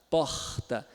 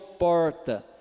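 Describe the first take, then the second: First: The R is a raspy fricative at the back. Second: The R is curled back in the mouth. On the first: "Já o carioca ... fricativo plano velar surdo" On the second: "o do paulista, que é do interior de São Paulo"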